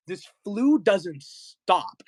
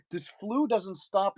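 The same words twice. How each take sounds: First: Slow, drawn-out mock despair; dramatic lament. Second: Said in the usual way. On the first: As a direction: groan it out theatrically. Dramatic complaint about flu.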